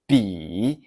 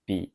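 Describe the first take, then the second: First: The full third tone is used. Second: A shortened everyday third tone is used. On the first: "The full third tone is" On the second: "The daily use is"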